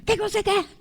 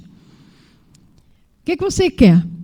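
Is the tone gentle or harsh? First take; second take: harsh; gentle. First: It is said in a harsh, stern tone. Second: It is said in a soft, gentle tone.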